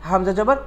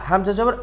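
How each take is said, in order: Both takes have the same delivery.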